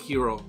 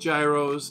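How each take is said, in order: First: The word begins with a soft Y or H sound. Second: The word begins with a hard G or J sound. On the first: The speaker calls it right. "It's pronounced hero" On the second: The speaker calls it wrong. "Not gyros"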